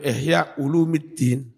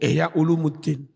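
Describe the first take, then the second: First: The vowel before -ddin is i. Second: The vowel before -ddin is u. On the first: This is the grammatically expected reading. The speaker calls it right. "Jarang yang menyebut ihya ulumiddin" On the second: This is the common popular reading. The speaker calls it wrong. "Kadung umum ihya ulumuddin"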